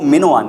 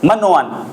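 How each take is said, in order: First: The first syllable has an 'i' vowel. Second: The first syllable has an 'a' vowel. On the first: The speaker calls it right. "वो मिनोअन है" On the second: The speaker calls it wrong. "वो गलत बोलते हैं"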